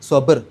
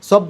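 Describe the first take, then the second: First: The b sound is released with a bounce. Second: The b sound is clipped without a bounce. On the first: The speaker calls it right. "ബ് എന്നുള്ളത് എടുത്ത് പറയണം" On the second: The speaker calls it wrong. "എന്ന് പറഞ്ഞാൽ പോരാ"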